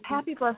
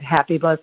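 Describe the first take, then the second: First: The tone is warm, enthusiastic and sincere. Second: The tone is mocking and sarcastic. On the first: It is truly welcomed as a blessing. The speaker calls it right. "all this energy of enthusiasm and gratitude" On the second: It is doubted that this is a blessing. The speaker calls it wrong. "I can get like a little bit sarcastic around that"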